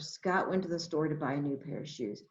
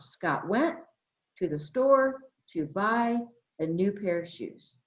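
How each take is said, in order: First: It is read smoothly without pauses. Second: It is read in short chunks with pauses.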